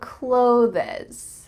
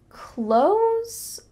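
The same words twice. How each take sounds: First: It keeps a clear th sound before s. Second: It sounds just like the word close. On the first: The speaker calls it wrong. "You heard the second one, but really that's not correct" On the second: The speaker calls it right. "we often pronounce close a lot like close the door"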